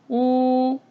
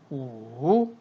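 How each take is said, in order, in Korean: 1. 음높이가 높고 평평하게 유지돼요. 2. 음높이가 낮게 내려갔다 올라가요. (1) "일성" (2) "삼성일 때는"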